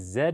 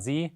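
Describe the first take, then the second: First: The letter is said as Canadian 'zed'. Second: The letter is said as American 'zee'.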